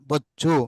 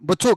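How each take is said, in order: First: The middle consonant is pressed and doubled. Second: The middle consonant is short, not pressed. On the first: The speaker calls it right. "ఇక్కడే ఒత్తి మాట్లాడాలా" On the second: The speaker calls it wrong. "బొచ్చు కాదు"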